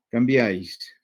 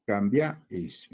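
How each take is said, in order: First: Said in the usual way. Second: "Cambia is" slow, with a gap before "is"; split into syllables. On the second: Shown as a demonstration. Teacher showing the class the same vowel pattern, "Cambia is" slowly split. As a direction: stretch "Cambia" and detach the final "is". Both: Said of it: "Acá también pasa lo mismo".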